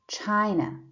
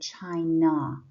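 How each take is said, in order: First: The final vowel is short and weak. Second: The final vowel is full and clear. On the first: The speaker calls it right. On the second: The speaker calls it wrong.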